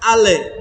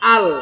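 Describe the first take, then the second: First: The word ends with a released extra vowel. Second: The word ends on a held L sound. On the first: The speaker calls it wrong. "এটা হবে না" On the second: The speaker calls it right. "নর্মাল ভাবে বলছি"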